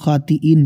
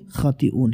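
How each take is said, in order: First: The word ends with an 'een' sound. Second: The word ends with an 'oon' sound. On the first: The speaker calls it wrong. "दुरुस्त जो कलमा है वो खातिईन नहीं" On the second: The speaker calls it right. "बल्कि खातिऊन है"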